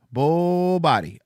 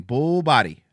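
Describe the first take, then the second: First: "Bull body" said slowly and drawn out; slow repeat. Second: Said in the usual way. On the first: Shown as a demonstration.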